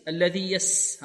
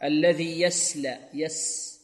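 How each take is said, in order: First: الذي يس with a light س; light thin س in يس; thin sin. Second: الذي يسلى with a light, thin س; sin instead of sad. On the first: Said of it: "نأتي بالسين". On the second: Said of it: "السين هكذا". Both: Shown as a demonstration.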